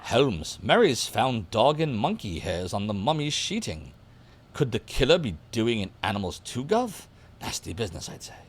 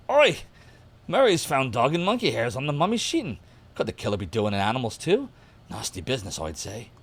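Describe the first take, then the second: First: Put-on half-hearted British gov'nor accent; unconvincing stab at a British accent; botched British accent. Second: Hammed-up British accent, punchy opening; cheeky put-on British accent; slightly better British accent. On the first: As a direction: attempt a British accent and miss it. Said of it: "I'm not doing the accent right". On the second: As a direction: lean into a mock British gov'nor accent. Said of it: "Let me do that again".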